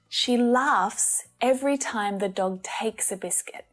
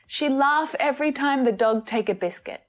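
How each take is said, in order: First: The final S sounds on the verbs are pronounced. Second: The final S sounds on the verbs are dropped. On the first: The speaker calls it right. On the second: The speaker calls it wrong.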